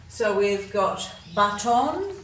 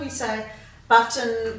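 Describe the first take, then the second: First: The last syllable has a full, clear vowel. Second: The last syllable has a weak schwa vowel. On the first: This way makes the spelling easier. "we don't pronounce them that way most of the time" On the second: This is the everyday way people say it. "So we give these a schwat sound as well"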